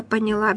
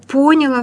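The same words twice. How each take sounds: First: "поняла" stressed on the last syllable; correct stress. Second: "поняла" wrongly stressed on the first syllable. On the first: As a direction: say "поняла" as поня-ЛА. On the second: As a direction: say "поняла" as ПО-няла. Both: Shown as a demonstration. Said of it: "вместо".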